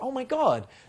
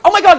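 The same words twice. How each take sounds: First: It is said lively but calm and controlled. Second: It is said with over-the-top excitement. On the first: The speaker calls it right. "It's like" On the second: The speaker calls it wrong. "It's not like overly excited. So I'm like"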